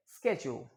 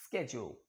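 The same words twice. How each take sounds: First: स्केड्यूल said with a hard sk and ch sound, "sketchu"; स्केड्यूल as "sked-jule"; American pronunciation. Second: स्केड्यूल low and soft, "sketchu"; quiet repeat of स्केड्यूल; American pronunciation. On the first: (American उच्चारण में स्केड्यूल) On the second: (धीमे स्वर में स्केड्यूल) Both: Shown as a demonstration. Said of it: "American English में कहते हैं".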